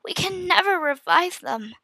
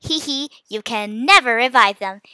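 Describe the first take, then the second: First: High, despairing, close to weeping; voice breaking. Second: Mildly mocking giggle-talk; teasing. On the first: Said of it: "my voice broke as I spoke". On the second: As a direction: tease with a little hee hee. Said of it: "he teased". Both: A narrator's reading.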